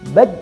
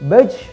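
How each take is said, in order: First: The final j is stopped and held, no bounce. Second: The final j bounces with a heavy puff of breath. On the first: "Tidak boleh tertahan. Baj, nah itu keliru" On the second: "memantul tapi nafasnya berlebihan"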